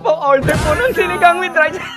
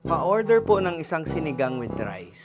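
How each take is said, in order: First: It is said as if being tickled. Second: It is said in a plain, normal voice.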